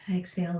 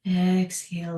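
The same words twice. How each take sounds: First: "Exhale" breathed out on a sigh, unvoiced and much softer; quick sighed "Exhale", no voice. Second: Said in the usual way. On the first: Shown as a demonstration. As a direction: let "Exhale" ride out on the breath. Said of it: "sighs Exhale".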